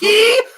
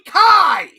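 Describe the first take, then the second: First: The word is said with an 'ee' vowel. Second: The word is said with an 'eye' vowel. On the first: The speaker calls it wrong. "It's like they're deliberately trying to mispr- mispronounce it" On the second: The speaker calls it right. "It's Agni fucking Kai!"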